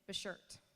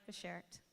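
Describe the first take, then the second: First: The word is said in a cutesy, imitated way. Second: The word is said in a plain, ordinary way. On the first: "as you so cutely pronounce it" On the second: "You are my Bashert"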